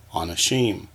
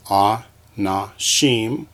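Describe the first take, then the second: First: Said in the usual way. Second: "a, na, shim" as three separate syllables. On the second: Shown as a demonstration. Teacher splitting a word for students, "a, na, shim" piece by piece. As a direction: space out "a, na, shim" beat by beat. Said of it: "we have syllables".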